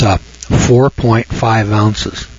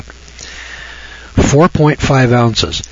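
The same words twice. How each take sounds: First: Slow dictation. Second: Very slow, each word spaced for note-taking; dictating slowly. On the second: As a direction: dictate "Four point five ounces" so they can write it. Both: Shown as a demonstration. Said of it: "Write this down".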